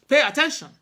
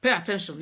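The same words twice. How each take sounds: First: Much louder and higher, a sharp order; stern command. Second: Said in the usual way. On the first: Retold or imitated. Mother ordering her daughter to listen, sharp and loud. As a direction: bark it like a mother who means it. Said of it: "I know that tone well". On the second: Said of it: "when she want me to pay attention".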